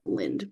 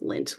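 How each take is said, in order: First: The name ends with a D sound. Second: The name ends with a T sound. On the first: The speaker calls it wrong. "I always want to pronounce it Lind" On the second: The speaker calls it right. "but it's Lint"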